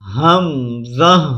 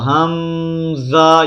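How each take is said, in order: First: The sounds are short, without nasal lengthening. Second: The sounds are stretched and drawn out through the nose. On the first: The speaker calls it right. "बल्कि क्या पढ़ना है" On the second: The speaker calls it wrong. "ये नहीं करना"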